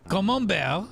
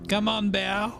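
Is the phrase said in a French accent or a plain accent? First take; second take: French; plain. First: It is said in an imitated French accent. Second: It is said in the speaker's ordinary accent.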